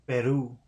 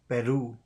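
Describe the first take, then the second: The two takes are said the same way.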